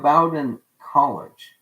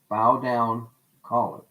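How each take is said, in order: First: The name sounds like 'bo-din'. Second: The name sounds like 'bow down'.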